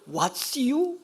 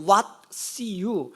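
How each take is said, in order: First: "What's you" as a high rising question; acted English question, "you" pitched up; misheard English question. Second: "What's you" broken apart word by word; explained English phrase. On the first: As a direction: lift sharply on "you", as if asking. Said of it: "시골 사람이 영어를 잘하네?". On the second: Shown as a demonstration. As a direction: set "What's" apart, then let "you" fall. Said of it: "어법도 안 맞고 순서도 안 맞지만".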